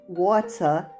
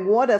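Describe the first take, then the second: First: The word is said with careful, forced effort. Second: The word is said in a relaxed, flowing way. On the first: This is the pronunciation other people expect. "it sounds like I'm really trying to say it" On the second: This is the speaker's own natural pronunciation. "water for me just flows"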